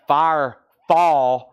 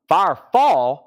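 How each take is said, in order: First: "Firefall" drawn out slowly and loudly as two separate words; careful re-pronunciation. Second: Loud, strong Southern drawl; Southern accent. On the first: Shown as a demonstration. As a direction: say "Firefall" very slowly, splitting Fire from fall. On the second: Real, not acted. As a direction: let the Southern accent come right out, higher and louder. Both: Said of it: "My southern accent really came out then".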